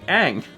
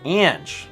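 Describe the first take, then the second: First: The name ends with a plain ng sound. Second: The name ends with a soft j sound. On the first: The speaker calls it wrong. "I think I've probably said Ang" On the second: The speaker calls it right. "it says it's pronounced like Ange Min"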